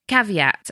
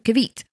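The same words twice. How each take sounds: First: The word is pronounced the usual, standard way. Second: The word is pronounced in a playful, altered way. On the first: "rather than saying caveat" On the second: "I'll say, ooh"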